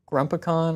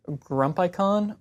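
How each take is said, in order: First: Grumpicon said as "GRUMP-uh-con"; short-vowel pronunciation. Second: Grumpicon said as "grump-EYE-con"; long-i pronunciation. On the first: Offering another way to pronounce the tool's name, short-vowel Grumpicon, "grump-uh-con". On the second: Unsure how you pronounce the tool's name, long-i Grumpicon, "grump-eye-con". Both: Shown as a demonstration. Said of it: "not really sure how you pronounce it".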